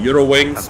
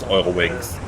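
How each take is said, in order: First: The name is pronounced the English way. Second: The name is pronounced the German way. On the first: A minority of pilots say it this way. "There are a couple guys saying" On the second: Most pilots of the airline say it this way. "the majority of them actually pronounces it the German way"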